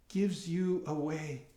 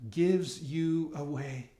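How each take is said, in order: Both takes have the same delivery.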